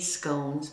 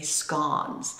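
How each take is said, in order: First: The word is said the American way. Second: The word is said the British way. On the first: "I'm in the United States. We say scones" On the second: "when you're in Britain, they say scones"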